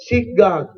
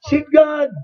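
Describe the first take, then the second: First: "seek" stressed, falling on "God"; "seek" carries the weight, "God" drops. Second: God hit high and loud; "God" punched, "seek" light; stress on God. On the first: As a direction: lean on "seek". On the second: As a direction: lean hard on "God". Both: Shown as a demonstration.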